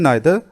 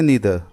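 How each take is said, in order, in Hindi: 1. पहला स्वर 'eye' जैसा बोला जाता है। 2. पहला स्वर 'ee' जैसा बोला जाता है। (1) "ब्रिटिश इंग्लिश में नाइदर" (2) "अमेरिकन इंग्लिश में नीदर"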